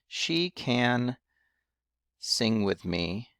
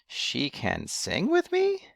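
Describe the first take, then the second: First: It is said as a statement, falling. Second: It is asked as a question, rising.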